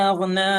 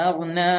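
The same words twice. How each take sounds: Both takes have the same delivery.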